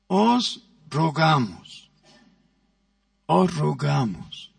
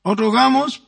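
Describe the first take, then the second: First: Gentle plea. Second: "Os rogamos" higher and louder, stated firmly; firm emphasis. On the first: Preacher demonstrating to the congregation how a gentle plea sounds. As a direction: plead gently, drawing out each word. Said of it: "¿Cómo es la entonación de un ruego?". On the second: Preacher stressing the apostle's words to the congregation. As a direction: proclaim "Os rogamos" strongly before turning to exhort. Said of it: "hay la otra palabra, que es exhortamos". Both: Shown as a demonstration.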